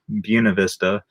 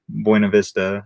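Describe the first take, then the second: First: It is said with the local residents' pronunciation. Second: It is said with the usual, non-local pronunciation.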